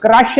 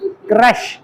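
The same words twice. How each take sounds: First: क्रश with a short flat vowel, the mistaken way; क्रश said the wrong way on purpose. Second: क्रश with a single short e, rising; क्रश said correctly, one matra; right way. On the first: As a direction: show how not to say क्रश. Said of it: "pronounce कैसे करना". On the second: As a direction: model क्रश the French way. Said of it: "एक ही मात्रा". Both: Shown as a demonstration.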